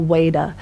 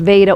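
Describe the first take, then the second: First: The word begins with a W sound. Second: The word begins with a V sound. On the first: "which can be pronounced V or W" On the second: "which can be pronounced V or W"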